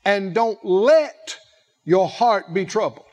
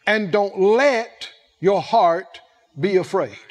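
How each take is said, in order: First: Don't "let", each word weighed; stress on let. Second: "let" slow and heavy, falling; slow and deliberate, hitting "let"; slow stress on let. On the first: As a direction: lean hard into "let". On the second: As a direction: lay weight on "let". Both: Shown as a demonstration. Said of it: "Take advantage of the peace".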